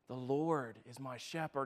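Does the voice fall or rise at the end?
falls. It is said as a statement, falling.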